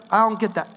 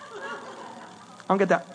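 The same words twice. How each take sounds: First: Said in the usual way. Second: Under the breath, slower, confused; baffled mutter. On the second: Real, not acted. Preacher baffled by duck face selfies, quiet slow mutter.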